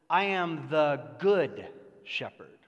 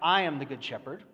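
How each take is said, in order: First: The stress is on the word good. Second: The stress is on the word I.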